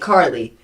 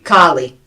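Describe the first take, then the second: First: It is said without a strong New York accent. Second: It is said with Donna's strong New York accent.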